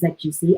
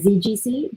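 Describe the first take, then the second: First: The first letter is said as 'zed'. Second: The first letter is said as 'zee'. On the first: This is the non-American way of saying it. "but I'm not American, so I'm going to say Z G C" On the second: This is the American way of saying it. "I'm guessing the Americans would say Z G C"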